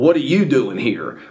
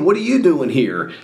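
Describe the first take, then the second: First: It sounds annoyed and displeased. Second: It sounds pleasantly surprised and friendly. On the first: The listener's presence is unwelcome. "the inflection that they use says that they're not real happy that you're there" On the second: The listener's presence is unexpected but welcome. "that's basically them saying, hey, I didn't think that you were going to be here, but you're here"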